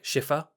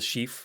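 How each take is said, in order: First: The name ends with an English 'er' sound. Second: The name ends in a French way, barely sounding the R. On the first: "as if it's spelled E R at the end, and they just go like Schiffer" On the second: "it's a French name, so you'd be like Le Chiffre, and you wouldn't really put the R on"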